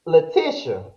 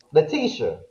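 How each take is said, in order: First: Letitia as luh-TISH-uh; short i in Letitia. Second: Letitia as luh-TEE-shuh; long ee in Letitia. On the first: Host trying out a guest's name, short-i Letitia. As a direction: say Letitia with a short "ish" middle. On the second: Host retrying a guest's name, long-ee Letitia. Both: Shown as a demonstration. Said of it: "how you pronounce her name".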